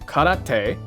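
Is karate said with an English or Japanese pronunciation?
Japanese. It is said with Japanese pronunciation. "You don't do"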